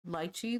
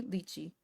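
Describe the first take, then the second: First: "lychee" said as LIE-chee; first syllable of "lychee" rhymes with "lie"; alternative pronunciation. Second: "lychee" said as LEE-chee; first syllable of "lychee" rhymes with "see"; alternative pronunciation. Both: Shown as a demonstration.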